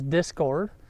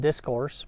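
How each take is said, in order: First: The word ends with a 'cord' sound. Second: The word ends with a 'course' sound. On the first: The speaker calls it right. "it's Discord" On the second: The speaker calls it wrong. "I was pronouncing it wrong in my last video. I said discourse"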